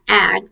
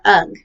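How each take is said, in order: First: The vowel is the 'a' sound. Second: The vowel is the 'uh' sound. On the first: "not ag" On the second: "or ugh"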